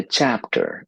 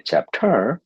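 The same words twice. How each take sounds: First: "chapter" stressed on CHAP; first-syllable stress. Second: "chapter" stressed on the end, chap-TER, rising high; wrong-syllable stress. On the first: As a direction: hit the start of "chapter" and let the end fall. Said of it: "using stress in the first part". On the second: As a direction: push the second syllable of "chapter" up. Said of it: "the listener will look at you and think". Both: Shown as a demonstration.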